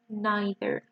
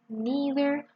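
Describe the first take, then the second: First: The first vowel sounds like 'eye'. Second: The first vowel sounds like 'ee'. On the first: "or as an I" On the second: "you can pronounce it as E"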